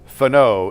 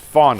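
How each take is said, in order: First: The stress is on the second syllable. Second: The stress is on the first syllable. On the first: The speaker calls it wrong. "it's not Fano" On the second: The speaker calls it right. "where's the emphasis on the fawn?"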